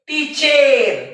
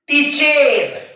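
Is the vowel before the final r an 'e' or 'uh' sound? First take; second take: e; e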